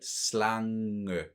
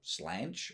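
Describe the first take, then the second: First: It is pronounced with Danish sounds. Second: It is pronounced like an English word. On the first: "But slange" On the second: "if you look at it and pronounce it in English, I, I'm sure someone would say slange"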